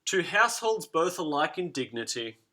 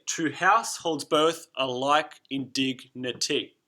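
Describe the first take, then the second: First: Said in the usual way. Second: Slow, stressing every second beat; "To house holds both alike in dignity" with beats on house, both, like, dig; da-DUM scansion, slowly; read in iambic stress. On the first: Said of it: "This is the opening lines of Romeo and Juliet". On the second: Shown as a demonstration. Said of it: "if we were to read it like that".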